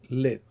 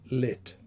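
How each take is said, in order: First: The final t is held with no air released. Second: The final t ends with a small puff of air. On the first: "an unreleased voiceless alveolar stop" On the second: "realized as a final release of a voiceless alveolar stop"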